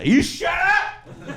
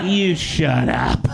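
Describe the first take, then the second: First: High, drawn-out mock yell. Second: Slow mock mom, less high; calmer repeat. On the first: Mom yells at dad, high, slow and laughing. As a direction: screech it like a tipsy mom. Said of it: "And she goes". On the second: Mom's retort replayed slow, a notch calmer. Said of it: "One glass of Pinot Grigio".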